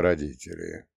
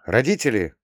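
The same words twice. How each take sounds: First: Relieved. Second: Said in the usual way. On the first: Acted. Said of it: "Облегчённо вздохнул я".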